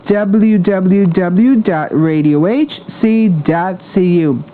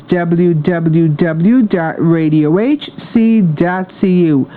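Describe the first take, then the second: No difference in how they are said.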